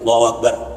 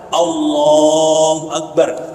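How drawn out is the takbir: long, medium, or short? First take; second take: short; long. First: The takbir is said short, without lengthening. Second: The takbir is drawn out somewhat longer.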